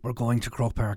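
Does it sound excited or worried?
worried. It sounds worried and daunted.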